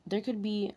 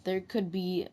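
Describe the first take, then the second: No difference in how they are said.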